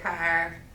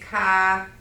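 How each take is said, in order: First: Every sound in the word is pronounced fully. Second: One sound in the word is substituted. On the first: The speaker calls it right. "instead of" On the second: The speaker calls it wrong. "for me, it's car"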